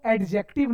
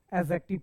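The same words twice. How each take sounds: First: First एडजेक्टिव with a hard d, "ed-jektiv"; mispronunciation. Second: एडजेक्टिव as "ezektiv", d left out; silent d. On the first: Teacher showing what not to read, एडजेक्टिव with d pronounced. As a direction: sound the d in एडजेक्टिव. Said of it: "नहीं". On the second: Teacher showing how we read it, एडजेक्टिव with silent d. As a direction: say एडजेक्टिव without any d. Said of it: "पढ़ेंगे". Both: Shown as a demonstration.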